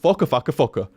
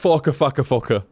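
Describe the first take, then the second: First: The name is said quickly. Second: The name is said at a normal speed.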